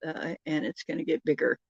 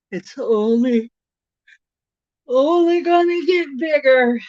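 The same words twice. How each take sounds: First: Said in the usual way. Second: "only" pushed up high and loud, "bigger" stretched out; emphatic "only gonna get bigger". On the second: Real, not acted. Telling stream viewers the summer gets wilder, emphatic and rising.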